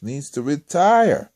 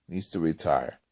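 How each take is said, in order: First: RETIRE stretched out, higher and loud; slow, insistent punch on "retire"; emphatic verdict. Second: Said in the usual way. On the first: Real, not acted. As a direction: drive home "retire" with a long, loud, falling cry. Emphatic verdict, then repeated low.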